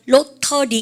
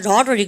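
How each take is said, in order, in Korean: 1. t는 또렷하고 분명하게 발음됩니다. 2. t는 빠른 탄설음으로 약하게 발음됩니다. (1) "영국 사람들은 트 발음 다 하는 거 되게 좋아합니다" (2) "그래서 미가 lottery 그러고요"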